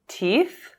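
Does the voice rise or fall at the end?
rise. The voice rises at the end.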